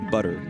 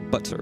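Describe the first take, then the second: First: The middle T is softened into a D sound. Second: The middle T is pronounced clearly and crisply. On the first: "we basically turn our T's into D's" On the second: "they tend to enunciate the T's"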